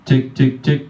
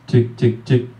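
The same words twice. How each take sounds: First: The voice keeps its full high frequencies. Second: The voice has its high frequencies cut away.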